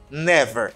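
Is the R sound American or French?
American. The R is an American English R. The speaker calls it right. "R américain très sensible"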